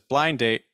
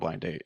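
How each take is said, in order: First: The stress falls on the word blind. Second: The stress falls on the word date. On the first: "So sometimes you get the stress on blind" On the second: "the more frequent way you hear that is honestly with the stress more on date"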